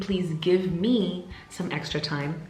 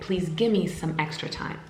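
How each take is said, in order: First: Each word is said separately and fully. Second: The words are squished together, like gimme. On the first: "instead of saying" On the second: "I squish it all together and I say"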